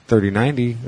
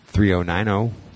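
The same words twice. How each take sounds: First: The zeros are read as the word zero. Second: The zeros are read as the letter oh. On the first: The speaker calls it right. "That's not your number. It's" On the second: The speaker calls it wrong. "It's not an O. O is a letter. You don't say"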